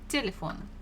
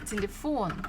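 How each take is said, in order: First: The stress is on the first syllable. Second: The stress is on the last syllable. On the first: The speaker calls it wrong. "if it was uh, falling on the first one, it would have sounded as telephone" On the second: The speaker calls it right. "But we pronounce this телефон"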